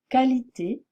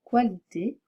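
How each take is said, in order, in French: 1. Le « qu » est un simple son k. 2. Le « qu » est un son kw. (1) "se prononce comme son symbole phonétique, c'est-à-dire comme un K" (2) "Je ne dois pas dire"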